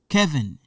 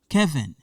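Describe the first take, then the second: First: The name is pronounced with English sounds. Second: The name is pronounced with English sounds.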